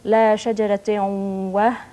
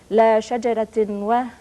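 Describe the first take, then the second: First: The n merges into a nasal, doubled w. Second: The n is pronounced separately before the w. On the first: This is the recited form of scripture. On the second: This is the ordinary literary reading.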